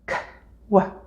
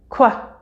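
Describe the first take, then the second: First: The two sounds are said apart with a pause. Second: The two sounds are blended into one quick syllable. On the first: "try each sound separately" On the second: "and then together, faster and faster"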